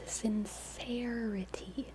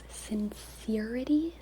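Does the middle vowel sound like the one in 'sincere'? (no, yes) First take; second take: no; yes. First: The middle vowel differs from the vowel in sincere. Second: The middle vowel matches the vowel in sincere. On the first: "I think two is right" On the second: "one is the way to say sincere"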